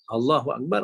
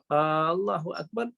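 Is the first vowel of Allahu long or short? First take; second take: short; long. First: The first vowel is said short. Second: The first vowel is drawn out long. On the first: God is the greatest. The speaker calls it right. "Allah Maha Besar" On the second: It asks whether God is the greatest. The speaker calls it wrong. "adakah Allah Maha Besar? Berubah makna. Maka tak sah"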